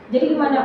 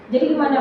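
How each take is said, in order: First: It is said in a calm, flat tone. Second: It is said in a calm, flat tone.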